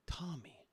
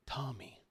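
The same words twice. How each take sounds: First: Whispered name, lost in thought; whispering. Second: Said in the usual way. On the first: Acted. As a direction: breathe the name to yourself. Repeats name while thinking.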